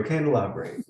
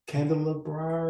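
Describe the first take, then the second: First: "candelabra" ending on "bray"; corrected pronunciation. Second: "candelabra" tried with an "ah" ending; unsure pronunciation. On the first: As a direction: say "candelabra" with a final "ay" sound. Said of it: "There you go". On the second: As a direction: stumble through "candelabra", ending on "brah". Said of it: "I can't pronounce it". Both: Real, not acted.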